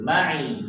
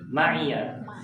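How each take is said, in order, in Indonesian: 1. Kata ini berakhir dengan bunyi 'i' biasa. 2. Kata ini berakhir dengan bunyi 'yya' yang ganda. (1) "tambahkan ya sukun" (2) "Kalau dibaca wasal ya-nya jadi hidup"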